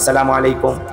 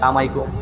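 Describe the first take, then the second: First: Every syllable of the greeting is said in full. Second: The greeting is clipped and run into one word. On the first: The speaker calls it right. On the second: The speaker calls it wrong.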